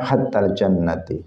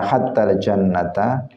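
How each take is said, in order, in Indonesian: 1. Kata jannat diakhiri dengan vokal i. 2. Kata jannat diakhiri dengan vokal a. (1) "boleh dibaca dengan tiga harokat" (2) "boleh dibaca dengan tiga harokat"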